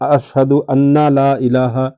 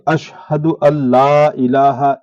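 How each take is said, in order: First: An extra 'na' syllable is added before 'la'. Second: The 'n' merges into 'l', giving 'alla'. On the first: The speaker calls it wrong. "तो इस तरह कहना गलत है" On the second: The speaker calls it right. "सही ये है"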